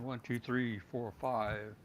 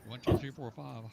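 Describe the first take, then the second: First: The voice sounds thinner and brighter, with less bass. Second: The voice sounds fuller and bassier, with softer highs. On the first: "the lapel mic" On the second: "Heil boom mic"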